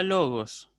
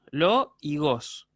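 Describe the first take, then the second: First: Said in the usual way. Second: "lo y gos", each syllable slow and separate; teacher separating "lo" from "gos". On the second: Shown as a demonstration. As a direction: split logos into a drawn-out "lo" and "gos". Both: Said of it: "una palabra que tiene dos sílabas".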